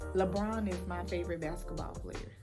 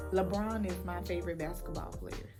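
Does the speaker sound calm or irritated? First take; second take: calm; calm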